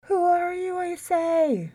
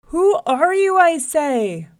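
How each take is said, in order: First: High, sustained echoing call; echo from a well. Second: Very loud, high, insistent demand; angry holler. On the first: Well repeats the lion's demand, as an echo. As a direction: send it back like a distant echo. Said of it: "the voice came back up". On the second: Mad lion challenges his reflection, hollering. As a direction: shout it down a well, losing your temper. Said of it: "he hollered down the well again". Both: A narrator's reading.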